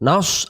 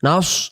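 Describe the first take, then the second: Both takes have the same delivery.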